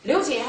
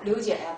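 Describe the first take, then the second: First: It is said in a happy, upbeat tone. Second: It is said in a listless, drooping tone.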